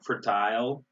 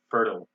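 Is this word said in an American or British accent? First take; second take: British; American. First: The word is said in a British accent. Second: The word is said in an American accent.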